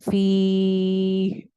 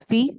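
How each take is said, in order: First: The vowel is drawn out long before the stop. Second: The vowel is cut short before the stop. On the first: The speaker calls it right. "इसको लंबा करके रुकेंगे ना, ऐसे करके रुका करें" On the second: The speaker calls it wrong. "ऐसे नहीं रुकना"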